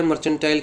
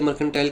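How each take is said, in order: First: मर्चेंटाइल pronounced with "ch"; a "ch", not a "k", in मर्चेंटाइल; "ch" pronunciation. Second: मर्केंटाइल pronounced with "k"; a "k", not a "ch", in मर्केंटाइल; "k" pronunciation. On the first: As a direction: say मर्चेंटाइल as "mer-chen-tile". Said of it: "मर्चेंटाइल कह लीजिए". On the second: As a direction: say मर्केंटाइल as "mer-ken-tile". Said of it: "मर्केंटाइल कह लीजिए". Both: Shown as a demonstration.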